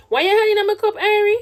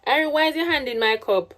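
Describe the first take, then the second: First: Sharp scolding call. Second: Said in the usual way. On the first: Real, not acted. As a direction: call her out, pitch jumping up. Scolding baby's hand in cup.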